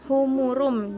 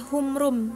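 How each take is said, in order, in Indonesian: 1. Vokal yang jelas diucapkan di antara m dan r. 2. Vokal di antara m dan r dihilangkan.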